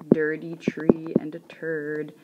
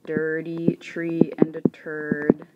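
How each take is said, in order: Both takes have the same delivery.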